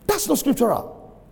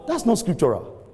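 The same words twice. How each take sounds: First: High-pitched, insistent verdict; emphatic repeat. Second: Said in the usual way. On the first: Real, not acted. Preacher repeats his verdict on staying put seventeen years, high emphatic protest. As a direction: drive it home in a raised pitch.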